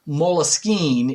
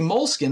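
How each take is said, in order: First: It is said with a French pronunciation. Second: It is said like the English word moleskin. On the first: "is like the French pronunciation" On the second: "people who say moleskin, they often think it's M O L E S K I N"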